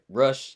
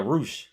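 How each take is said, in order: First: The name is said as 'rush'. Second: The name is said as 'roosh'. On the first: The speaker calls it wrong. "Where I said Rush" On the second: The speaker calls it right. "Ru- oh yeah, Roosh"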